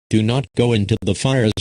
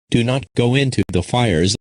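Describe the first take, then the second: No difference in how they are said.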